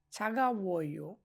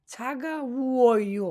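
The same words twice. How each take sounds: First: ছাগা উয়ো slow and softer, "chha-ga-wo-yo"; gentler sounding-out. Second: ছাগা উয়ো drawn out as "chha-ga-uu-o-yo"; teacher modelling ছাগা উয়ো slowly; slow sounding-out. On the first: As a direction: quietly model ছাগা উয়ো for learners. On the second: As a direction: stretch the vowels of ছাগা উয়ো. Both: Shown as a demonstration. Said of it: "এটাকে আমরা উ বলবো".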